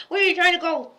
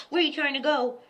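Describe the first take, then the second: First: Playful louder scold of the cat; louder teasing call. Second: Said in the usual way. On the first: Pretend. Teasing the cat in their game, louder and higher. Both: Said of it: "we play that game a lot".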